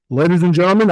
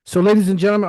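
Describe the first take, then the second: First: Big dramatic movie announcer; movie trailer voice. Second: Said in the usual way. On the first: Shown as a demonstration. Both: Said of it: "I'm gonna put on my movie voice".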